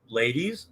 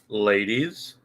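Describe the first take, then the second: First: It is said quickly and plainly. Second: It is said slowly and creepily, drawn out.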